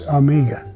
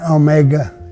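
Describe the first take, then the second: First: The word begins with an 'ah' sound. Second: The word begins with an 'oh' sound. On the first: The speaker calls it right. "it's Amiga" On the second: The speaker calls it wrong. "So it's not Omega"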